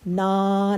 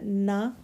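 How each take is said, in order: First: The final vowel is drawn out long. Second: The final vowel is short, one beat. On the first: The speaker calls it wrong. "ना नहीं करना" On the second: The speaker calls it right. "सिर्फ हमने करना ना"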